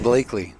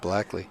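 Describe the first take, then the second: First: The first vowel sounds like in 'bake'. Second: The first vowel sounds like in 'black'. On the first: The speaker calls it right. "so it's Blakely" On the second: The speaker calls it wrong. "not Blackley"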